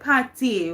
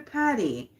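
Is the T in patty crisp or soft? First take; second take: crisp; soft. First: The T in the middle is crisp. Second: The T in the middle is soft. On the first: The speaker calls it right. "pronounce everything to the T" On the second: The speaker calls it wrong. "we don't say patty"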